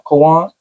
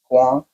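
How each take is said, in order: First: The name is said fully as two syllables. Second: The name is said quickly as one syllable.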